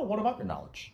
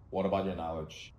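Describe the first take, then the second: First: It is asked in a curious, interested tone. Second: It is asked in a flat, uninterested tone. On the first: The asker genuinely wants to hear more. The speaker calls it right. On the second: The asker is just following a script. The speaker calls it wrong.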